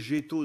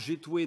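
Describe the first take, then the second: First: The word ends in an o vowel. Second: The word ends in an oué sound. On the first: This is the form used in the north. "dans le nord" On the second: This is the form used around Amiens. "dans l'amiénois"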